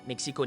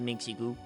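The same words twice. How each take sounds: First: It is said with a French accent. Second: It is said with an English accent. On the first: The speaker calls it right. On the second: The speaker calls it wrong.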